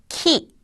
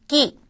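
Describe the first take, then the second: First: The k has a strong puff of air. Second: The k is tense with no puff. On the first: The syllable begins the word. "단어의 첫 음에 쓸 때는 키" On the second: The syllable is not at the start of the word. "첫 음이 아닐 경우에는 끼"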